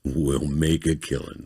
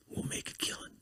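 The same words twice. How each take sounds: First: Slow, drawn-out deep voice; slow, lightly deepened croon; deep romance voice. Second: Very soft, whispered romance-narrator tease; hushed, voiceless whisper; whispered sales pitch. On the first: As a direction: draw it out like a romance-book narrator. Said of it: "in that deep, like goddamn voice". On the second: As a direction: whisper it like a secret scheme. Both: Acted.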